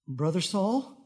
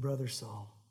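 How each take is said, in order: First: It sounds hesitant and fearful, like a question. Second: It sounds sure and warm, like a statement. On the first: The speaker doubts the other is truly a brother. The speaker calls it wrong. "he probably didn't say it that way. I'm just thinking if he would be a little bit of afraid" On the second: The speaker is certain the other is a brother. The speaker calls it right. "no doubt"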